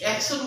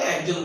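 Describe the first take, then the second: First: The middle consonant sounds like 'sh'. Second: The middle consonant sounds like 'j'. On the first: This is the actual form of the term. "আসলে একশন" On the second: This is how people say it aloud. "উচ্চারণ করার সময় একজন বলে"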